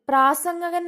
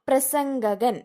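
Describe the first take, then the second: First: The first vowel is long, praa. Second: The first vowel is short, pra. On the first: The speaker calls it wrong. "എന്നൊക്കെയാണ് നമ്മൾ പൊതുവെ കേട്ടിട്ടുള്ളത്. അങ്ങനെയല്ല" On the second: The speaker calls it right. "വെറും പ്രായമുള്ളൂ, പ്രാന്നില്ല"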